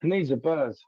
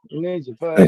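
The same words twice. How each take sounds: First: Said in the usual way. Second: Louder repeat. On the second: Real, not acted.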